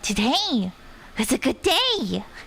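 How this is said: The voice rises at the end.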